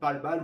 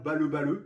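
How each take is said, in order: First: The name is said as one French-style word. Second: The name is said as two separate, Japanese-style syllables.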